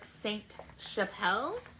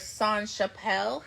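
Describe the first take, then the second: First: The T at the end of Saint is pronounced. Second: The T at the end of Saint is silent. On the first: The speaker calls it right. "there's an E at the end, which means the T you pronounce it" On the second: The speaker calls it wrong. "I always want to say song"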